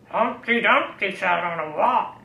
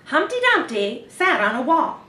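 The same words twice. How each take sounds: First: It is said in a growly pirate voice. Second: It is said like a news reporter.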